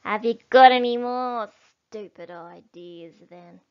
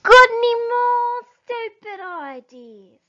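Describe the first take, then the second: First: Sour little dwarf asking; a needling jab at Bean; grumpy dwarf. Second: High, loud shout to a deaf man; shouted back. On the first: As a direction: Bunce grumbling at Bean. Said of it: "looked up at Bean and said". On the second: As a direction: bellow it so Bean can hear. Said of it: "Bunce shouted back". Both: Acted.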